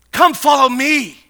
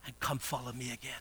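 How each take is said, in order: First: High, loud summons; ringing shouted command; commanding call. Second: Very soft, low voice; low, quiet appeal; hushed invitation. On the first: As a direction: call it out at full pulpit force. Preacher repeats Christ's call loudly. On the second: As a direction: drop right down to a gentle call. Preacher voices Christ's call softly first. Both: Acted.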